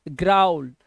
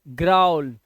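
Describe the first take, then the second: No difference in how they are said.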